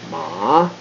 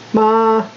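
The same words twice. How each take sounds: First: The pitch goes down and then up. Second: The pitch stays high and level. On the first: It means horse. "you'd go down and then go up" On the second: It means mother. "There's a high tone, which they call first tone"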